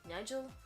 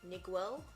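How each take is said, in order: First: The name is said as Nigel. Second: The name is read as Niguel. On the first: It is the speaker's usual pronunciation. "I always pronounce that Nigel" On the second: It is read the way it is written. "it looks like Niguel"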